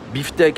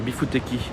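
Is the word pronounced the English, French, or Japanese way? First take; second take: French; Japanese. First: It is pronounced with French sounds. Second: It is pronounced with Japanese sounds.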